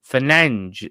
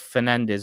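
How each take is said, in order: First: The name is said the Portuguese way. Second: The name is said the English way.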